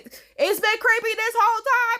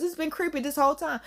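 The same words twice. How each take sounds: First: High-pitched emphatic complaint; worked-up, incredulous insistence; exasperated outburst. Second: Said in the usual way. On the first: Real, not acted. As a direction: protest it, pitched way up.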